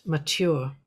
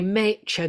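First: "mature" said the standard way, "ma-TYOOR", stress on the end; plain correct "mature" with the stress on the last syllable; standard pronunciation. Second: "mature" said "ma-CHAY-ture", rhyming with nature, Leeds-style; Leeds mispronunciation. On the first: Shown as a demonstration. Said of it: "not mature". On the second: Retold or imitated. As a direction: say "mature" so it rhymes with nature, first syllable "may". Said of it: "mature to rhyme with nature".

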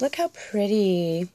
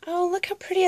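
First: Said in the usual way. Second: Much higher, gushing over it; delighted squeal. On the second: Real, not acted. Vlogger gushes over the pretty envelope, delighted.

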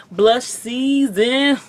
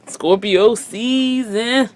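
First: Slow, booming announcer drawl; radio announcer voice. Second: Slow, loud promo voice; radio announcer voice. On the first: Shown as a demonstration. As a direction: say it like a radio promo. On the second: Retold or imitated. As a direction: stretch it out like a radio host. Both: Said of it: "that radio voice that be like".

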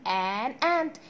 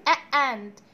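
First: "an and" said slowly and linked; correct an. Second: "a and" with a clumsy break; wrong a. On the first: Teacher to pupils, giving the right form slowly. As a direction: say "an and" with the n joining. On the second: Teacher to pupils, showing the awkward wrong form. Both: Shown as a demonstration. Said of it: "النطق بتاعها هيبقى مش ظريف".

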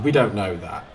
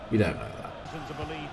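First: Said in the usual way. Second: Slow, softer repeat; drawn out and hushed; quiet aside. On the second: Real, not acted. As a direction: drop it to a slow, soft aside. Repeats his correction as an aside.

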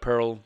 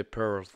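First: Said in the usual way. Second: "Pearl" with a t added at the end, "perlt"; corrected surname ending. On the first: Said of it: "Instead of Pearl, you say". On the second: Shown as a demonstration. Reactor correcting himself on the surname, "Pearl" ending in t. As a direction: close "Pearl" on a final t. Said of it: "you say Pearl".

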